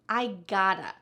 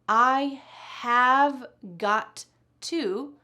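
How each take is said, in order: First: The words are squeezed into a short reduced form. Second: Every word is said fully and separately.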